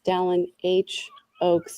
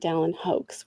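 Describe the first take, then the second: First: The letter H is spoken separately before Oaks. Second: The H merges into one word sounding like hoax. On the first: The speaker calls it right. "it's it's it's Dallin H. Oaks" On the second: The speaker calls it wrong. "not Dallin Hoax"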